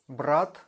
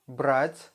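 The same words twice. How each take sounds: First: "Brat" ending on a hard, unpalatalized T. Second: "Брать" ending on a palatalized T; soft T. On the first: Teacher gives the word for brother, hard T in "Brat". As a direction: close "Brat" with a plain hard T. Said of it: "soft and hard T sound". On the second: Teacher gives the word for take, soft T in "Брать". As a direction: soften the final T of "Брать". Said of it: "consonant to be soft". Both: Shown as a demonstration.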